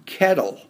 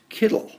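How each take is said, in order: First: The first vowel sounds like 'e'. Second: The first vowel sounds like 'i'. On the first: "in the word kettle" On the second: "we would ordinarily pronounce that as kittle"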